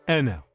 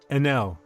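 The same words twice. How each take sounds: First: The stress is on the first syllable. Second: The stress is on the second syllable. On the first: The speaker calls it right. "you're putting the accent on the first, the stressing the stress on the first syllable, not the second" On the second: The speaker calls it wrong. "I kept saying N L"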